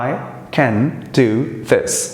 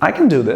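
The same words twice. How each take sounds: First: The word 'can' has a full, clear vowel. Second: The word 'can' is reduced to a quick 'kun'. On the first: "As an Indian, as a non-native speaker, we can say" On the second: "the exact sound of I can do this is going to be"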